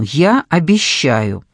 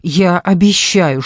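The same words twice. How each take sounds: First: «Я» stressed, said slowly. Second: Said in the usual way. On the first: Acted. Kostya reassures Sasha, slow, stressing «Я». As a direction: lean on «Я», slow and firm.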